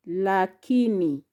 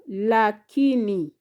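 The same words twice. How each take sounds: The two takes are said the same way.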